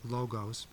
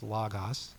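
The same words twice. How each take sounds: First: It is said with an English pronunciation. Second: It is said with a Greek pronunciation. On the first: The speaker calls it wrong. "you probably heard it as logos" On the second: The speaker calls it right. "actually the Greek pronunciation is logos"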